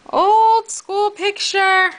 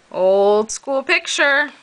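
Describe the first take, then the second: First: High, slow drawn-out voice; high silly voice. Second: Said in the usual way. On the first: Pretend. Repeats in a high put-on voice.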